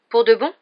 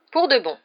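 First: High, rising, hopeful question; timid disbelief. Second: Firm, falling confirmation; smiling assurance. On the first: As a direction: ask if it is truly so, pitched up. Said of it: "demanda-t-il d'une voix timide". (question incrédule et montante) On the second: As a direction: confirm it with a smile, high then falling. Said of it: "assura le professeur McGonagall en souriant". (confirmation souriante et assurée) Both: A narrator's reading.

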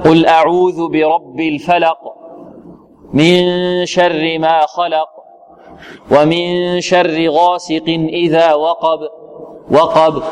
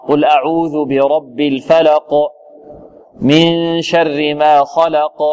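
First: الفلق and وقب read slow with a limp, barely bounced ending; weak qalqala. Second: الفلق and خلق read slow with a firm bouncing final stop; strong qalqala. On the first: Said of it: "هذا يعتبر ضعف". (قلقلة ضعيفة في الفلق ووقب) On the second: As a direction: push the final stops out with force. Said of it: "يخرجها بقوة". (قلقلة قوية في الفلق وخلق) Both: Shown as a demonstration.

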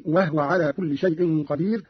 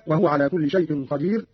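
First: وهو as "wahwa", h without a vowel; vowelless ha. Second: Said in the usual way. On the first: Shown as a demonstration. Teacher shows Qalun's reading, وهو said "wahwa". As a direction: shorten وهو to "wah-wa". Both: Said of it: "بإسكان الهاء".

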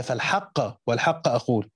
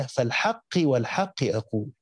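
First: فالحق والحق said with fatha endings, falħaqa walħaqa; accusative reading. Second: فالحق والحق said with kasra endings, felħeqi walħeqi; Hasan's reading with jarr. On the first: Teacher giving the nasb reading to students, slow fatha endings. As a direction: recite both حق words ending in -a, slowly. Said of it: "القسم محتمل في قراءة النصب للحق الأولى". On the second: Teacher reciting Hasan's reading for students, slow kasra endings. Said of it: "قراءة الحسن بجر "الحق" "والحق". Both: Shown as a demonstration.

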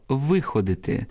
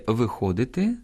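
First: "виходити" stressed on "ви"; first-syllable stress. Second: "виходити" stressed on "хо"; second-syllable stress. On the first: Teacher meaning nursing the sick, "виходити" stressed on "ви". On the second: Teacher meaning going out, "виходити" stressed on "хо". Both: Shown as a demonstration. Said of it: "наголос впливає на значення слова".

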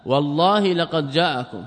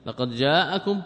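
First: والله stressed, the phrase said slower; slow, weighty oath with والله pressed hardest; emphatic oath reading. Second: Said in the usual way. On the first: Shown as a demonstration. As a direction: lean on والله, then draw out لقد جاءكم. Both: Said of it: "ها، كم مؤكد؟".

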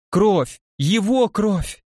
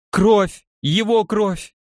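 First: Истерично, слово «Его» медленно и высоко; протянуть «Его кровь» в истерике; frantic shouting hostage taker. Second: Истеричный крик, срывается вверх; кричит в панике, высоко и громко; frantic shouting hostage taker. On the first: (истерика, «Его» растянуто) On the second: (истерично кричит о крови) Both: Acted. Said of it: "истерично закричала она".

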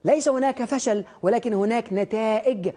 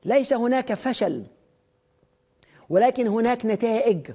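First: "ليس هناك فشل، ولكن هناك نتائج" repeated slowly with weight on "ليس" and "ولكن"; slow repeated motto. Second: "ليس هناك فشل، ولكن هناك نتائج" spoken slowly with weight on "ليس" and "ولكن"; slow stated motto. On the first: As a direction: restate the principle slowly as a closing reminder. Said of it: "عشان كده". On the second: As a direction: lay down the principle slowly, word by word. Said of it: "مبدئين انا عايش بيهم". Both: Shown as a demonstration.

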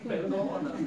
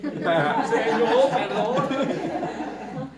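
First: A louder, pleading perdóname; repeated plea for forgiveness, raised and pleading; mock pleading. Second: Drawn-out, very loud, laughing perdóname; loud, hugely stretched mock wail through laughter; hammed-up wail. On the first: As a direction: beg perdóname again, a bit louder. Repeated confession, mock desperate. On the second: Exaggerated wailing plea for forgiveness.

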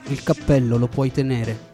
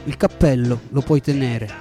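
No difference in how they are said.

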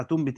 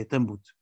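First: تنبت as "tunbit", u then i; damma reading. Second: تنبت as "tanbut", a then u; fatha reading. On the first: Teacher tracing one reading to the other, تنبت said "tunbit". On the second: Teacher tracing one reading to the other, تنبت said "tanbut". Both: Shown as a demonstration. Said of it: "فيرجع تنبت إلى".

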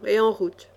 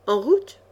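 First: Said in the usual way. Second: "route" rising steeply at the end; puzzled echo question. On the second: A narrator's reading. Echoes the proposal as question.

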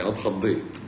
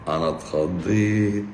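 First: Said in the usual way. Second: Slow, drawn-out playful fright on اتخضيت; mock fright. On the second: Doctor teasing a viewer about her entrance, with mock fright. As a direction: stretch اتخضيت out like a pretend scare.

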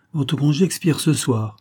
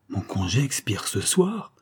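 First: Higher-pitched statement falling at the end on "ce soir"; firm announcement. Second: Slow, disbelieving question rising at the end; incredulous exclamation. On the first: Baron informing the count his leave is over, firm statement. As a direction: land "ce soir" as a settled fact, voice falling. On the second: Count learning his leave ends tonight, incredulous. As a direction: echo the news in astonishment, lifting "ce soir" into a question. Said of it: "s'écria le comte". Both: A narrator's reading.

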